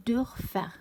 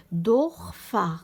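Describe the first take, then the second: First: دورفر with a lighter, fronted o; umlaut ö. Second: Slow, loud دورفر with back o, as Dorfar; plain o, no umlaut. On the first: Teacher shows the word after adding umlaut, دورفر with ö. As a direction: say دورفر with rounded front ö, as Dörfer. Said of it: "كي زدت له الاملاوت". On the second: Teacher shows the word before adding umlaut, slow دورفر with plain o. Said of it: "قبل ما نزيد الاملاوت". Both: Shown as a demonstration.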